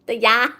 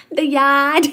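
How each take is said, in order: First: Mild Boston accent try. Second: Louder Boston accent try. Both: Shown as a demonstration. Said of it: "Can you park the car in the Harvard yard".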